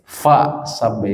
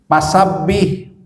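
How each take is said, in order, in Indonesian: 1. Frasa itu diawali dengan bunyi f. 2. Frasa itu diawali dengan bunyi p. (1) "Harusnya apa?" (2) "Karena dia susah menyebutkan F orang Sunda"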